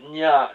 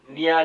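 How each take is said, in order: First: The n is made against the palate. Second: The n is made with the tongue tip. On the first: The speaker calls it right. "이럴 때 나는 니은 소리가 구개음입니다" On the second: The speaker calls it wrong. "설단음으로 자꾸 내려고 애를 쓰는데 그러면 안 됩니다"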